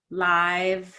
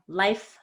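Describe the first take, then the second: First: LIVE rhyming with five, vowel drawn out; lengthened vowel. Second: LIFE with a quick vowel before F; short vowel. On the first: Teacher models minimal pairs, LIVE drawn out. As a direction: stretch the vowel in LIVE before a buzzing V. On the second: Teacher models minimal pairs, LIFE said short. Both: Shown as a demonstration. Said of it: "these vowels have a change in size".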